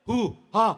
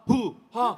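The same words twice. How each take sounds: Both takes have the same delivery.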